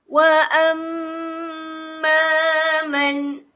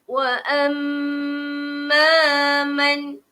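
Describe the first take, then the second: No difference in how they are said.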